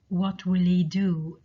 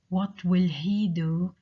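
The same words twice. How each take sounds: First: Some sounds in the phrase are dropped. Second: Every sound in the phrase is pronounced.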